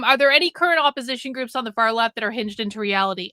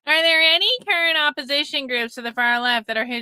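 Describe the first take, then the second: First: It is read in a normal voice. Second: It is read in a mocking voice.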